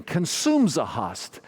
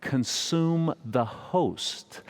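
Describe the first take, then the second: First: Higher, slow imitation of a Croatian accent; imitated Croatian priest, words run together; thick Croatian accent. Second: "Consume the host" very slowly, each word separate; clear pronunciation. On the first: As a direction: repeat it insistently in a mock Croatian accent. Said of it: "He said it again". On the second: Shown as a demonstration. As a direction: spell out "Consume the host" word by word in standard English. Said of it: "He was saying".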